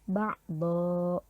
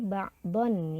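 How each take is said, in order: First: The word ends with a lengthened vowel. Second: The word ends with an n sound. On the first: The reader stops on this word. "tetapi dibaca ba'do, panjang dua harokat" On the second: The reader keeps going without stopping. "Harusnya kan kalau di sini ba'don ya"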